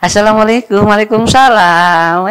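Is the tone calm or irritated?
calm. It is said in a calm, warm tone.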